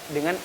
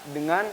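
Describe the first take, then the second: The two takes are said the same way.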